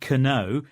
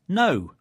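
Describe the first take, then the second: First: The word begins with a K sound. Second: The word begins with an N sound. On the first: The speaker calls it wrong. "so it isn't know" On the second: The speaker calls it right. "but we don't say the letter K"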